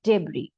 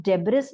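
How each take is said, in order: First: Debris as deb-REE, the S silent, falling; the right way, deb-REE, no S; right pronunciation. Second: Debris with the S sounded, deb-riss; the wrong way, deb-riss, with the S said; wrong pronunciation. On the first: Teacher gives the correct debris after the wrong one. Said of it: "हम इस word को क्या बोलेंगे". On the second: Teacher shows the wrong way to say debris. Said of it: "ये हम debris नहीं बोलेंगे". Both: Shown as a demonstration.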